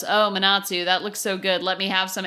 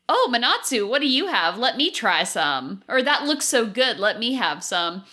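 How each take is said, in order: First: Mild deadpan monotone. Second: Lightly voiced eager Laura; a hint of greedy excitement; usual eager Laura. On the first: Retold or imitated. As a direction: say it flat, no interest at all. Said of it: "absolutely deadpan goes". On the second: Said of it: "usually you would go".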